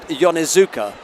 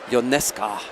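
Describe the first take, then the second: First: The name is said like 'Yonezuka'. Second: The name is said like 'Ionesca'. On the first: This is how the speaker used to say the name. The speaker calls it wrong. "I always said Yonezuka" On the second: This is how the name's owners say it. The speaker calls it right. "they said it's Ionesca"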